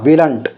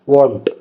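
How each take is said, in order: First: The contraction keeps the 'will' sound: willn't. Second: The contraction changes the vowel: won't. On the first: The speaker calls it wrong. "ऐसे ऐसे नहीं, गलत हो जाएगा" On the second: The speaker calls it right. "ये क्या आएगा"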